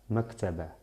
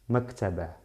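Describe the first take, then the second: No difference in how they are said.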